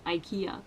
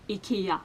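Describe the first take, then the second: First: The word is said the English way. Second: The word is said the Swedish way. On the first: The speaker calls it wrong. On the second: The speaker calls it right. "is pronounced in Swedish"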